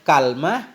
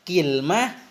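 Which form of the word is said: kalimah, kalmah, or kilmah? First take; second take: kalmah; kilmah. First: First vowel a, no vowel after the l. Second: First vowel i, no vowel after the l. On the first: "fathah kaf ... bersama sukun lam" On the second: "kasrahnya kaf bersama sukun lam"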